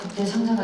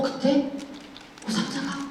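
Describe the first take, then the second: First: It is read flatly, in one even run. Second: It is read expressively, with pauses and rising questions. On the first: The character simply states a fact. "얘는 그냥 어 그때 상자가 있었다 이럴 수 있지만" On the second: The narrator conveys the character's unspoken inner feelings. "이렇게 조금 더 내가 확장해서 표현해 줄 수 있지 않을까"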